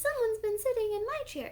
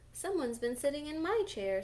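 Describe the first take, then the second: First: The voice is tiny and squeaky. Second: The voice is medium in size and pitch. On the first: "squealed little baby bear in his wee little voice" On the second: "in her middle-sized voice"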